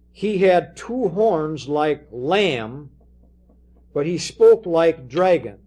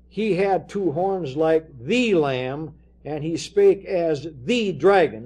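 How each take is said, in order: First: "like lamb" and "like dragon" said slowly and loud, with no "the"; no article, slow and weighty. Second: THE lamb and THE dragon, each "the" leaned on; slow reading that lands hard on "the" before lamb and dragon; stress on the article. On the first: Preacher shows the literal reading, "like lamb" said slow and loud. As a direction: drop the article and lean on lamb and dragon as titles. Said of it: "you could translate it this way". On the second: Preacher shows the wrong reading, stressing "the" in "the lamb". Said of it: "it's not". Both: Shown as a demonstration.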